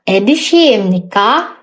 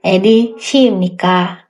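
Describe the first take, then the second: First: "Edi Shimnika" with the pitch rising on "Shimnika" at the end; rising question tune. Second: "Edi Shimnika" asked flat with a falling end, like a statement; wrong flat tune. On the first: Teacher showing students the right question tune, rising on "Shimnika". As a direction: lift "Shimnika" upward like a real question. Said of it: "nadanya lebih naik gitu ya". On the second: Teacher showing students the wrong question tune, flat and falling. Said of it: "antara nada tanya dengan nada pernyataan". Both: Shown as a demonstration.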